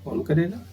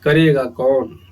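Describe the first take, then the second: First: The question is said plainly, without lengthening. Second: The question is drawn out with rising and falling pitch. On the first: Someone will do it. "सामान्य अर्थ" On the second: Nobody will do it. "इसका दीर्घ उच्चारण कर दें"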